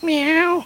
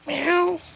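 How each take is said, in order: First: The meow is a bit louder. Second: The meow is soft and small.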